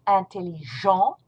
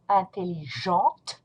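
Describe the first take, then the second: First: Intelligent ending on the nasal vowel, no T; French masculine intelligent, final T dropped; silent T. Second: Intelligente with the final T clearly sounded; French feminine intelligente, T heard at the end; pronounced T. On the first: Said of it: "You do not pronounce the T". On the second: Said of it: "You will pronounce a T". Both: Shown as a demonstration.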